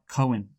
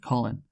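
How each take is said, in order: First: It sounds like the name Cohen. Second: It sounds like the usual name Colin. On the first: The speaker calls it right. "It's like Cohen" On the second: The speaker calls it wrong. "not pronounced like Colin"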